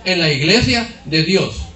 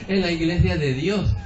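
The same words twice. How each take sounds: First: It is said firmly and confidently. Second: It is said hesitantly and shyly. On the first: The speaker is proud of their church. The speaker calls it right. "Así, con firmeza, sin vergüenza" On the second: The speaker is ashamed of their church. The speaker calls it wrong. "somos tímidos para contestar"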